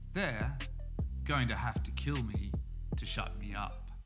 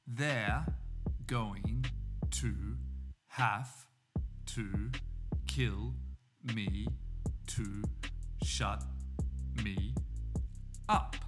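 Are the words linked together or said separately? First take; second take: linked; separately. First: The words run together with sounds linked. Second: Each word is said separately, without linking. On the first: "Now we have some linking" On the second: "we say these words separately"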